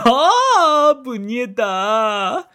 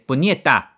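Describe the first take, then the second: First: It sounds like happy delight. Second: It sounds like an angry curse.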